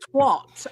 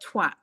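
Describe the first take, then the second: First: The vowel is said like an 'o' sound. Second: The vowel is said like an 'a' sound. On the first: The speaker calls it wrong. "not twat" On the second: The speaker calls it right. "The word is twat"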